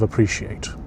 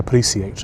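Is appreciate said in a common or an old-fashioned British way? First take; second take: common; old-fashioned British. First: It is said in the common modern way. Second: It is said in an old-fashioned British way. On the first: "instead of appreciate" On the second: "very British men, they often say appreciate"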